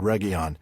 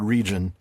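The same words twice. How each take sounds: First: It is pronounced as the Sindarin word. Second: It is pronounced like the ordinary English word. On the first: The speaker calls it right. "It's the Sindarin word Region" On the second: The speaker calls it wrong. "it looks like the English word region. It's not"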